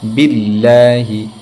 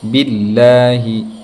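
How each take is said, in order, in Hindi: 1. Allah में L की आवाज़ हल्की और पतली होती है। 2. Allah में L की आवाज़ हल्की और पतली होती है।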